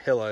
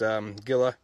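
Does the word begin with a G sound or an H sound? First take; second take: H sound; G sound. First: The word begins with an H sound. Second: The word begins with a hard G sound. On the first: The speaker calls it right. "Hilla is actually how they pronounce it" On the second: The speaker calls it wrong. "It's Gila"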